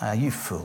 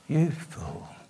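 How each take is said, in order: First: It is said with a scornful, contemptuous tone. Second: It is said with a gentle, sorrowful tone. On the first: The speaker looks down on the fool. The speaker calls it wrong. "I used to read it with a level of contempt" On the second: The speaker grieves for the fool. The speaker calls it right. "with a much tenderer, tragic feel"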